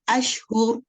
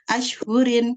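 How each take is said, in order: First: The word ends cut off on the consonant. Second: The word ends with a full -in ending. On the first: The reader stops at this word. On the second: The reading continues without stopping.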